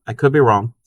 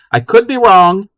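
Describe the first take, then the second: First: Said in the usual way. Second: "could" lifted high and louder, playful; teasing self-doubt, "could" pushed up and out; emphatic could be wrong. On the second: Real, not acted. Repeating chat's line with a shrug.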